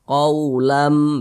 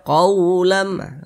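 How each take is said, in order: First: The word is said softly and lightly. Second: The word is said with forceful pressure. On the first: The speaker calls it right. "lunak saja. Qaulam begitu" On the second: The speaker calls it wrong. "Jangan dibaca qaulam"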